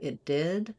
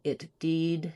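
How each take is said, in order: First: The vowel in 'did' stays short and lax. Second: The vowel in 'did' drifts higher and tense. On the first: The speaker calls it right. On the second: The speaker calls it wrong.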